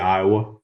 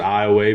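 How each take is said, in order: First: It is said the way northerners say it. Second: It is said the local southern Louisiana way. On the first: This is how people farther north say it. "if you go north I ten, it's it'll be Iowa" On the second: This is how people from the town say it. "we pronounce it Iowa because we're south of I ten"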